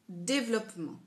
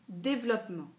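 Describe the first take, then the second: First: It is said fast, dropping the middle vowel. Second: It is said fast, dropping the middle vowel.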